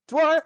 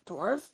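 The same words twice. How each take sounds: First: Loud, high-pitched call; orcs' rousing call. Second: Softer, questioning lift at the end. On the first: Orcs call on the dwarf to drink, rousing. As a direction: call it up like a rowdy crowd. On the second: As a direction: say it quietly as an offer. One orc hands over drink. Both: Acted.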